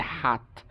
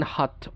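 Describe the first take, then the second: First: American হাত (hot) as HAHT; American pronunciation. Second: British হাত (hot) with rounded O; British pronunciation. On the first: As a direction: open AH in হাত. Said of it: "ওরা বলে". (হাত-এ আ, American উচ্চারণ) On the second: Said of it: "ব্রিটিশরা বলে যেমন". (হাত-কে হট, British অ) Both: Shown as a demonstration.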